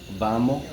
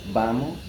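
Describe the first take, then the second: No difference in how they are said.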